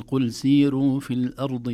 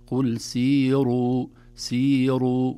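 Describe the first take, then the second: First: سيروا mit hellem, dünnem R, laut; dünnes R. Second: سيروا mit dickem, vollem R, laut und langsam; schweres R. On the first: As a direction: sprich das R in سيروا fein und hell. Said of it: "تمشي والله، لكن ليست صحيحة". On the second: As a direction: verdicke das R in سيروا. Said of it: "نفخمها". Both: Shown as a demonstration.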